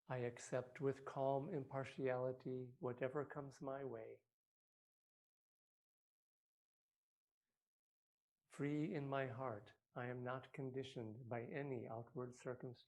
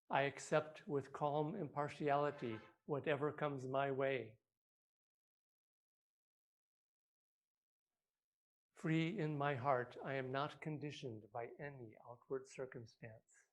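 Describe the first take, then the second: First: It is said more quietly. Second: It is said loudly.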